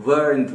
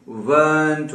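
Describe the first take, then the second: First: "weren't" with the r sounded, like "wərənt"; American "weren't" with the r. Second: "weren't" with no r sound, like "wənt"; British "weren't" without the r. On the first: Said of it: "Americans के पास तो हर आर बोला जाता है". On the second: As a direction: drop the r in "weren't". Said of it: "आर नहीं पढ़ी जाएगी". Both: Shown as a demonstration.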